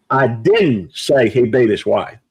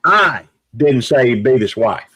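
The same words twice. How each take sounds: First: Didn't punched as a firm denial; stress on DIDN'T. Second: I didn't say he beat his wife with I hit hardest; first word I stressed. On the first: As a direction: hit the word didn't. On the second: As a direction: lean on the word I. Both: Shown as a demonstration. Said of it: "I'm gonna say it several different ways".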